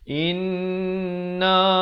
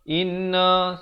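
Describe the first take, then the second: First: The n is held with a two-beat nasal hum. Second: The n is said without a held nasal hum. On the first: The speaker calls it right. "Yang betulnya inna lan" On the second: The speaker calls it wrong. "Jangan baca inna, inna, salah"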